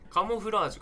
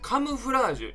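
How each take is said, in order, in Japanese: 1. 2番目の音節は'mo'と発音します。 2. 2番目の音節は'mu'と発音します。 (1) "カモフラージュじゃなくて"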